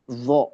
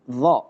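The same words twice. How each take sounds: First: The vowel is said with pouted, rounded lips. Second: The vowel is said with lips in neutral position. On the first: The speaker calls it wrong. "bukan bilang dha" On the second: The speaker calls it right. "tapi dha"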